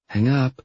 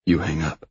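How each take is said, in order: First: Higher-pitched female voice; lifted, coaxing girlfriend voice; playful girlfriend. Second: Said in the usual way. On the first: Acted. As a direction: tell him playfully, pitch well up. Playful who-hangs-up-first exchange.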